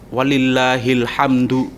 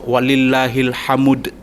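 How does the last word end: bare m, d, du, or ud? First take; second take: du; ud. First: The final word ends with a du syllable. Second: The final word ends with an ud syllable. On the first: "harokatnya dibaca walillahil hamdu, itu yang betul" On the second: "Atau walillahil hamud"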